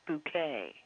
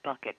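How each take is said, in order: First: It sounds like bouquet, stressed at the end. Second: It sounds like bucket, stressed at the start. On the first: "it was Hyacinth Bouquet" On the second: "people would pronounce it bucket"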